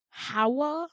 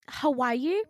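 First: "Hawa" in two syllables, HA-wuh; two-beat "Hawa" with rising end; correct name. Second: "Hawaii" said huh-WHY-ee; wrong name. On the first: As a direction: offer "Hawa" high and loud as a prompt. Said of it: "it's two syllables". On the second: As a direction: guess "Hawaii" high and loud, questioning. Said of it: "No, Hawa". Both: Retold or imitated.

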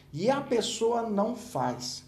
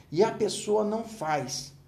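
First: "E a pessoa não faz" said very slowly, word by word; slow emphasis. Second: Slow repeat. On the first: Teacher stresses that the person fails to act, slow. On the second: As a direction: let "E a pessoa não faz" sink in, slowly. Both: Shown as a demonstration.

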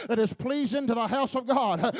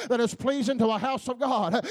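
No difference in how they are said.

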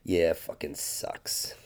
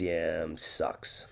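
First: Low, soft, slow and weary; muttered, slow resignation; tired mumble. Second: Low, soft, half-whispered mumble; hushed, weary and offhand; mumbled sucks. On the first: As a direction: drag it out like he's just worn down. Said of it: "he acknowledges it and says". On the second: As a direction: mutter it like a tired man who can't be bothered. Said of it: "He looks at you and says". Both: Retold or imitated.

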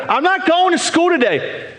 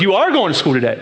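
First: Put-on higher sulky child refusing school; whiny kid. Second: Stern parent, stress on "are"; firm parent tone. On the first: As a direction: pout it out like a stubborn kid. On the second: Retold or imitated. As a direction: lay down the law, "are" leaned on. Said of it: "then you change your tone of your voice".

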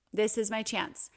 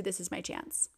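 First: Calm, a little fuller than before; settled resolve. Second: Much softer, almost to herself; soft realization. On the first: To herself in the exam room, calm sure resolve. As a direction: say it as a decision made. Inner thought repeated. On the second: To herself in the exam room, soft dawning resolve. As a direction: let the thought land quietly. Inner thought, shifting her mindset. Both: Retold or imitated.

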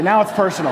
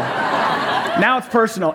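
First: Said in the usual way. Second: Drawn out slowly with a laugh; mock serious, laughing. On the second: Pastor repeats the line to the congregation, slow and laughing. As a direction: savour it, chuckling.

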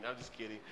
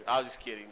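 First: Much softer, lower throwaway; quiet repeat. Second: Said in the usual way. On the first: Real, not acted. Youth pastor taking back his joke, quietly. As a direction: mumble it again under your breath. Joking retraction, said twice.

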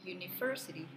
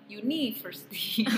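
First: University with stress on ver. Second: University pushed on ni, louder and slower; wrong stress on NI. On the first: Teaching the co-host: stress on ver in University. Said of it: "penekanannya ada di ver-nya". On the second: Showing the wrong way: University stressed on ni, louder. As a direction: lean wrongly on the ni. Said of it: "Bukan di ni-nya misalnya". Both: Shown as a demonstration.

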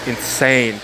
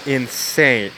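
The two takes are said the same way.

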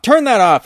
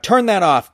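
First: A ghoul crying out against the light; louder screech. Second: Screeched. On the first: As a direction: read out as a higher, louder yell. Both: A narrator's reading. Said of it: "he screeched, his voice a shrill whisper".

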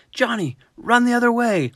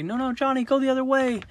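First: High, loud coach yell across the field. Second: High-pitched call to a small player; calling out to Johnny. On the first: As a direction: bellow it at the player from the sideline. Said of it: "coach yells". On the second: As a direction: sing out a correction to a little kid. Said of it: "and we say". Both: Retold or imitated.

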